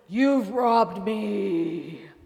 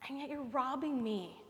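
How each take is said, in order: First: It is said in a harsh, booming tone. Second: It is said in a gentle, loving tone.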